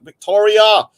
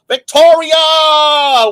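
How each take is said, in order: First: Raised, louder shout-out; name called out. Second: High, loud, drawn-out cry of the name; long holler. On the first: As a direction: call the name briskly to greet. Calling out a supporter's name. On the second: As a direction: stretch the name into a big shout. Same name hollered a second time. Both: Real, not acted.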